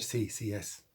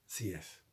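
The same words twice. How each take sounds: First: Said in the usual way. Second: Hushed whispered echo of the line. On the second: Shown as a demonstration. Priest repeating his answer to the faithful, whispered. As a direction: breathe it like a secret.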